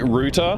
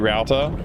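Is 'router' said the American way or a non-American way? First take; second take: non-American; American. First: It is said the non-American way. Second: It is said the American way. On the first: "I would normally say router" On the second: "Americans say router"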